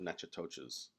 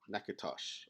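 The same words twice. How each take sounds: First: The name is said fully, following its spelling. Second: The name is said in its short local form. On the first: The speaker calls it wrong. "not Natchitoches" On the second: The speaker calls it right. "I think that's how you pronounce it"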